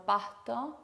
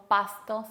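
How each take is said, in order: First: "pasto" with the s softened to an English-style h; aspirated S. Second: "pasto" with a clear hissed s; careful, sibilant s before the t in "pasto"; fully pronounced S. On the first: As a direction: exhale in place of s in "pasto". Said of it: "sino pasto". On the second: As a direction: sound the s distinctly in "pasto". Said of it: "no decimos pasto". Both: Shown as a demonstration.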